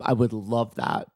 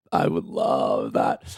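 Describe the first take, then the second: First: Said in the usual way. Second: Very low, drawn-out voice; mock sultry relish. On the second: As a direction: drop right down and savour it slowly. Repeats it in exaggerated low voice.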